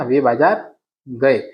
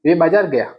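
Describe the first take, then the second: First: Slow, deliberate, gए stretched out in वे बाजार गए; teacher confirming the correct sentence slowly; slow correct form. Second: Doubtful, testing tone on गया; teacher quizzing: is वे बाजार गया right?; questioning the wrong form. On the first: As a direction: lay down the right answer word by word. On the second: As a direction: ask it as if the class should catch the mistake with गया. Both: Shown as a demonstration. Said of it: "नहीं, वे बाजार गए".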